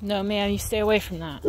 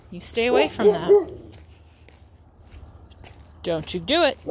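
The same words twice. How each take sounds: First: Said in the usual way. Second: Louder, insistent command to a dog; firmer warning. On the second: Real, not acted. Owner warning her dog off a can, firmly. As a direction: repeat the order with more force.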